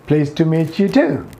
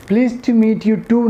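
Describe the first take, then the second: First: "meet you" as "meet-chu", breath after the t of "too"; slow "Pleased to meet you too" with a puffed t; aspirated T. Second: "too" with a t that has no puff of air, higher; wrong unaspirated T. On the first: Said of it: "टी के साथ हम एच का sound". ("too" के टी के साथ एच का sound) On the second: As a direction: keep the t of "too" dry in "Pleased to meet you too". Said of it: "नहीं होगा". ("too" में बिना हवा का टी) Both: Shown as a demonstration.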